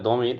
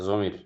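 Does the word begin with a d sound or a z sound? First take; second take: d sound; z sound. First: The word begins with a d-like sound. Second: The word begins with a z-like sound. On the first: "দোয়াত দিয়ে পড়লে দমির" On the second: "জোয়াত দিয়ে পড়লে জমির"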